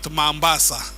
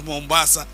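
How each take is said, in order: First: The first vowel sounds like 'a'. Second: The first vowel sounds like 'o'. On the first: The speaker calls it wrong. "She called it Mambasa" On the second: The speaker calls it right. "she actually didn't know how to pronounce it as Mombasa"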